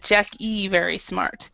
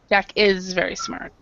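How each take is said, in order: First: The S sound in 'is' is dropped. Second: The S sound in 'is' is pronounced. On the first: The speaker calls it wrong. "what it sounded like, I mean, was you said Jack E very smart" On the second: The speaker calls it right. "remember to pronounce the S"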